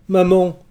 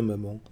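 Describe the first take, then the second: First: High, loud cry of Maman. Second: Soft, tender «maman» almost breathed. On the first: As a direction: call out to his mother with a burst of longing. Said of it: "s'écria-t-il". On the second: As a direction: say «maman» softly, dropping away. Son reassures his dead mother. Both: A narrator's reading.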